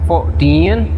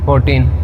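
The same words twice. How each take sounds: First: The teen syllable is clearly stressed. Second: The teen syllable is weak and lifeless. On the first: The speaker calls it right. "जो टीन है उसको stress दिया जाता है" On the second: The speaker calls it wrong. "जैसे कोई जान ही ना हो"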